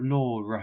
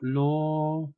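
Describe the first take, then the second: First: The word ends with an added r sound. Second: The word ends in a vowel with no r.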